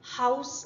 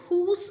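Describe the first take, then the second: First: The vowel is an 'ow' glide. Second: The vowel is a long 'oo' sound. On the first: This is the later, modern pronunciation. "Great vowel shift സംഭവിച്ച ശേഷം ... ഹൗസ് ആയിട്ട് മാറി" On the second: This is the older pronunciation. "Middle English കാലഘട്ടത്തിൽ ഇത് ഹൂസ് എന്നായിരുന്നു വായിക്കപ്പെട്ടിരുന്നത്"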